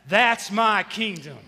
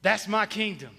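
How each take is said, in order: First: Louder call. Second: Said in the usual way. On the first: Shown as a demonstration. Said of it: "Say it loud". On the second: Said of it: "Say that with me".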